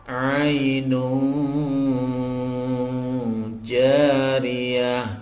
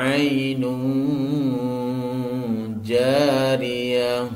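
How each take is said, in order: No difference in how they are said.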